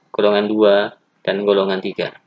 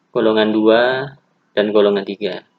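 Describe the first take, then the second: The two takes are said the same way.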